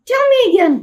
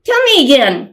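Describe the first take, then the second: First: Much higher, the younger sister pleading; little girl's voice. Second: Said in the usual way. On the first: Shown as a demonstration. Reader corrects the mixed-up voices, little sister's high child voice. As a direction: ask it like a curious small child. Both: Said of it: "I got the voices mixed up".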